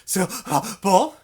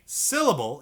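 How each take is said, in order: First: SYLLABLE slowly broken up by gasps; breath between syllables. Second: Said in the usual way. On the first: Shown as a demonstration. Teacher showing students the wrong way, SYLLABLE broken by breaths. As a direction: chop SYLLABLE apart, breathing in between each part. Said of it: "You don't breathe in between all the syllables". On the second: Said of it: "in one breath".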